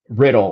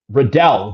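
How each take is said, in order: First: It sounds like the word riddle. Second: It rhymes with the name Liddell. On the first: The speaker calls it wrong. "not Riddle" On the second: The speaker calls it right. "rhymes with Liddell"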